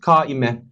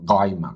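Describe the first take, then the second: First: It begins with a plain k sound. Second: It begins with a voiced sound deep in the throat.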